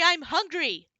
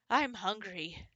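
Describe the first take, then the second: First: It is yelled very loudly. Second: It is said at a normal volume.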